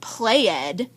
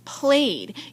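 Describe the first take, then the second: First: The ending is said as a separate syllable. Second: The ending is just a d sound. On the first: The speaker calls it wrong. "This isn't played" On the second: The speaker calls it right. "it's just played. You don't hear the E"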